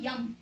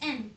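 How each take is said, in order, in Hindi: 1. अक्षर का नाम y ध्वनि से शुरू होता है। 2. अक्षर का नाम सादे स्वर से शुरू होता है। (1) "it's not यम" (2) "it's एम"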